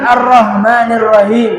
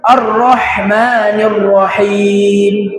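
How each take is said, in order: First: The h is a light, plain h. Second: The h is a strong, breathy throat sound. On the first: The meaning changes. The speaker calls it wrong. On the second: The intended meaning is kept. The speaker calls it right. "Yang betul"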